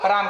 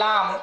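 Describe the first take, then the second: First: The word begins with an R sound. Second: The word begins with an L sound. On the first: "राम की जगह पर" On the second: "जिसके मुंह में दांत ना हो ... आवाज यही निकलती है लाम"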